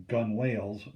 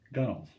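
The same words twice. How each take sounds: First: Gunwales said as spelled, gun-wales; spelling pronunciation. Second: Gunnels, rhyming with tunnels; correct pronunciation. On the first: Teacher shows how the word looks, gunwales as gun-wales. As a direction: say gunwales as two full words, gun and wales. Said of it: "This word looks like it's". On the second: Teacher shows the spoken form, gunnels without a w. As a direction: say gunnels with a reduced second syllable, no w. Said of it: "but it's pronounced". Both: Shown as a demonstration.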